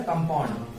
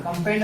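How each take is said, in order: First: कंपाउंड said properly as "kam-paund", with a clear "au"; the teacher's corrected कंपाउंड, "kam-paund"; correct pronunciation. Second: कंपाउंड said as "kampend", the middle vowel flattened; a student's mangled कंपाउंड, "kampend"; wrong pronunciation. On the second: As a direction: mispronounce कंपाउंड as "kam-pend" to show the error. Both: Shown as a demonstration. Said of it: "कंपाउंड नहीं sir".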